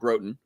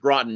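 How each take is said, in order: First: The name is said the outsider way. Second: The name is said the local way. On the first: The speaker calls it wrong. "not Groton" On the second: The speaker calls it right. "it's Groton"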